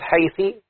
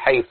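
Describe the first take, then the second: First: The word ends in a vowel other than u. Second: The word ends in a u vowel. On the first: The speaker calls it wrong. "لا تقل حيثي" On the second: The speaker calls it right. "تقول حيث، يبقى ده مبنى على الضم"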